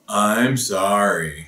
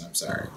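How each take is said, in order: First: The voice sounds tense and upset. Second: The voice sounds calm and gentle. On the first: The speaker calls it wrong. "that was not using a calm voice" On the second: The speaker calls it right. "Let me try that again"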